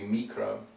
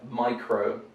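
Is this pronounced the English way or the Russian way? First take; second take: Russian; English. First: It is said with the Russian vowel. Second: It is said with the English vowel. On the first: "in Russian it would be mikro" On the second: "So we have micro"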